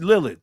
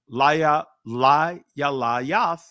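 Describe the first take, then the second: First: The name is said with ee vowels, Lilith. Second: The name is said with an ay vowel, Layath. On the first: This is the modern form of the name. "That's Lilith in the Israeli" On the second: This is the old form of the name. "that's the ancient pronunciation of it"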